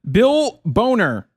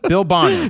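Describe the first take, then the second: First: The name's vowel sounds like the one in 'bone'. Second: The name's vowel sounds like the one in 'bonnet'. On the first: The speaker calls it wrong. "not Boner" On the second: The speaker calls it right. "That's Bonner"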